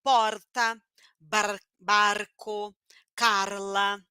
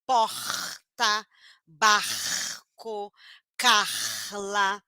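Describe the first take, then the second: First: PORTA, BARCO, CARLA with a brief tapped R; weak tapped R. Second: PORTA, BARCO, CARLA with a long throaty H-like R; strong guttural R. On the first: Teacher showing people who use weak R, tapped. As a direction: flick the R before each consonant. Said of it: "Falam com som do R fraco". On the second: Teacher showing people who use strong R, guttural. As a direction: scrape out the R before each consonant, slowly. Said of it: "falam com som do R forte". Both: Shown as a demonstration.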